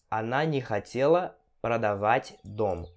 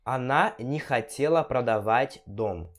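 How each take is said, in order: First: Slow, broken into phrases by pauses; slow teaching repeat. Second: Said in the usual way. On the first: Shown as a demonstration. Teacher repeats a house-selling example for students, slow and separated. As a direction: pause between phrases for learners.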